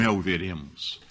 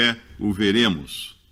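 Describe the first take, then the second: First: It is said in a lively, natural voice. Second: It is said in a flat, robotic voice.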